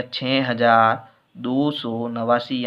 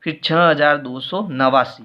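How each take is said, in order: First: Slowed down as if writing it out; slow dictation. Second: Said in the usual way. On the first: Shown as a demonstration. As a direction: spell out the number slowly while writing. Reads the number, then writes it. (लिखते हुए धीरे-धीरे बोलना)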